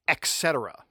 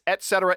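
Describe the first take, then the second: First: The first word is said 'ex' with x. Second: The first word is said 'et' without x. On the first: The speaker calls it wrong. "It is not et cetera" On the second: The speaker calls it right. "And it's et cetera. ... There is no X in et cetera"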